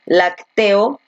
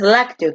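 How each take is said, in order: First: Lacteo stressed slowly on TE; stress on middle syllable. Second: Lácteo with LAC stressed; stress on first syllable. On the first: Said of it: "tú no dices lacteo". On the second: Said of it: "Porque tú dices lácteo". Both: Shown as a demonstration.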